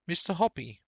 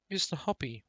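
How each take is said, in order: First: Calling up high and loud to a neighbour; excited shout. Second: Repeated call. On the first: Mrs Silver shouting up to Mr Hoppy, loud and high. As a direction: throw the name up to the balcony, thrilled. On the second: Mrs Silver calling a second time, less forceful. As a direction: keep calling, slightly eased off. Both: A narrator's reading. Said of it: "she was shouting".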